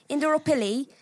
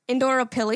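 First: It is said in a British-sounding accent. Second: It is said in an American accent.

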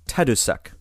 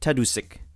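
First: The word ends with an English-style pronunciation. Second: The word ends with a French-style pronunciation. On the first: This is how English speakers say it. "depending on whether you're an Anglophone" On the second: This is how French speakers say it. "or a Francophone"

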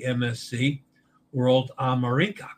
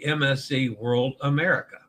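First: The name is said with an Italian pronunciation. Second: The name is said with an American pronunciation. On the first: The speaker calls it right. "I would think the Italian pronunciation of this would be" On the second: The speaker calls it wrong. "The bastardized American pronunciation of this is"

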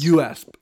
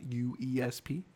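First: Only three letters are said, dropping the E. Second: All four letters are clearly spelled out. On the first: "I believe they just said USP" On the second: "See how I enunciated that?"

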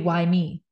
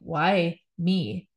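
First: It sounds open and curious, not self-pitying. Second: It sounds self-pitying, like a victim.

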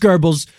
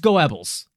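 First: The first vowel sounds like 'ur'. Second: The first vowel sounds like 'oh', read as spelled. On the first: "I know it's Goebbels, but I'm sick of fucking playing around with this fucking bullshit of like, oh, the O and the E makes an R sound" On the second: "This is spelled G-O-E-B-B-E-L-S. It's Goebbels, okay?"

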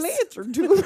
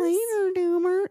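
First: It is said in a put-on Irish accent. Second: It is said in the speaker's normal accent.

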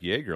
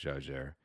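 First: The name is pronounced the German way. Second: The name is pronounced the French way. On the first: "looks like Jaeger, like Jaegermeister, right? That's very much a German name" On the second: "but in French it is pronounced Jaeger"

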